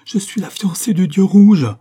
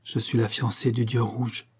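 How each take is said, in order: First: Loud, high cry of horror; terrified, despairing cry. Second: Hushed, shivering utterance, read with restraint; shuddering repetition. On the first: Sanda breaking in on Lucien: terrified, despairing cry. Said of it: "d'une voix d'épouvante et de désespoir". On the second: Sanda to Lucien, repeating her oath: hushed, mild shudder. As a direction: say it softly, as if with a shudder. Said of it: "répéta en frissonnant". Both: A narrator's reading.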